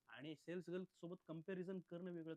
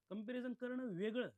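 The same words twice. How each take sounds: First: Said in the usual way. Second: करणं वेगळं pushed out loud and high, the first side of the contrast; emphatic contrast. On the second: Real, not acted. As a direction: stress the whole phrase comparison करणं वेगळं, louder and higher. (जोर देऊन, मोठ्याने आणि उंच आवाजात)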